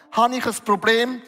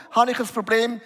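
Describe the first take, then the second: No difference in how they are said.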